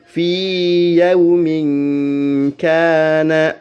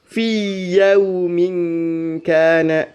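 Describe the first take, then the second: First: The vowel of fi is held long before the y. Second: The vowel of fi merges into the next y. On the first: The speaker calls it right. "dipanjangkan fi-nya" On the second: The speaker calls it wrong. "tidak boleh dibaca"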